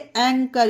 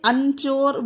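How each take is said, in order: First: The middle consonant is a 'k' sound. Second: The middle consonant is a 'ch' sound. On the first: The speaker calls it right. "इसे एंकर" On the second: The speaker calls it wrong. "इसीलिए इसे अंचोर वो या फिर अंचर नहीं पढ़ेंगे"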